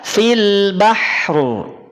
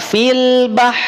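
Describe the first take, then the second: First: The final r sound is clearly pronounced after the h. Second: The final r sound is dropped after the h. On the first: The speaker calls it right. "Yang tepat adalah fil bahru" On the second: The speaker calls it wrong. "Maka tidak dibaca fil bah"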